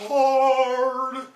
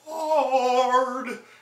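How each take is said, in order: First: The word is said with forced, exaggerated emotion. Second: The same.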